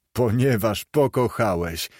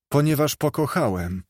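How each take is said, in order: First: Understated sneering mimicry; mocking echo. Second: Said in the usual way. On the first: A narrator's reading. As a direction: echo it back with dry derision. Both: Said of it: "przedrzeźniając go w ten sposób".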